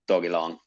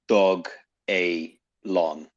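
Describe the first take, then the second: First: The name is said as dog, Elon. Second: The name is said as dog, a, lon. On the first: This is the easy, common pronunciation. The speaker calls it wrong. "it's so easy to just go Dog Elon" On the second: This is the official pronunciation. The speaker calls it right. "it was announced as Dog A Lon. So that's how they want us to pronounce it"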